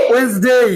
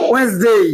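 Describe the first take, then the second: First: The middle d sound is silent. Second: The middle d sound is silent.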